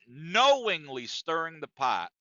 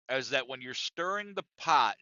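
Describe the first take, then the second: First: Slow, leaning hard on "knowingly"; stress on knowingly. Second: Said in the usual way. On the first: Shown as a demonstration. Comic correcting himself on stage, stressing "knowingly". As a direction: drag out "knowingly" with weight.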